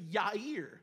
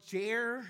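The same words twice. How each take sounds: First: The name is said in its original-style way. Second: The name is said in an anglicized way. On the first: "the more proper pronunciation is actually Jair" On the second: "now we say more Jair"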